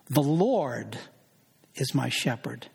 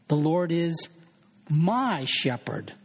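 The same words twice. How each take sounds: First: The word Lord is stressed. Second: The word my is stressed.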